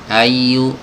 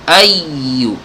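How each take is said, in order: First: The word is said flat, with no pressed emphasis. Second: The doubled ya is pressed with a slight jolt. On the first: The speaker calls it wrong. "ayu ini kan datar" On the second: The speaker calls it right. "kalau ditekan, dihentak sedikit"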